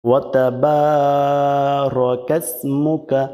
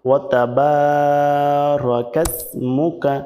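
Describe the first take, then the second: The two takes are said the same way.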